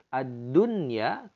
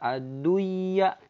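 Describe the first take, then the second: First: The n sound is clearly kept before the y. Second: The n sound is dropped before the y. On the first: The speaker calls it right. "ad-dunya tidak bisa dibaca" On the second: The speaker calls it wrong. "tidak bisa dibaca ad-duya. Salah"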